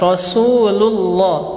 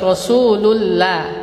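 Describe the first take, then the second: First: The l in Allah sounds heavy and dark. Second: The l in Allah sounds light and thin. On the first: The speaker calls it right. "dibaca apa? Tebal" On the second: The speaker calls it wrong. "bukan baca"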